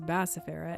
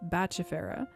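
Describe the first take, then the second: First: The middle consonant sounds soft, like s. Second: The middle consonant sounds hard, like k or ch. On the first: This is a habitual mispronunciation. The speaker calls it wrong. "I've long mispronounced it as bacifera" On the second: This is the accepted pronunciation. The speaker calls it right. "which is actually pronounced something like Bachifera"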